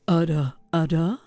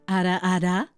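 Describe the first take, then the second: First: It is said in a deeper, lower voice. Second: It is said in her normal voice.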